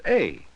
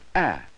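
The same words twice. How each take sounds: First: The vowel is long, as in "eight". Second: The vowel is short, as in "at". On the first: "The long sound of the letter A is A" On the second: "The short sound of A is A"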